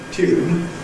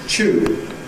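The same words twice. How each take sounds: First: It begins with a 't' plus 'y' sound. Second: It begins with a 'ch' sound. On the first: This is the older pronunciation. "traditional tune" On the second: This is the newer pronunciation. "moving towards ch"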